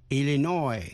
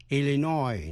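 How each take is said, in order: The two takes are said the same way.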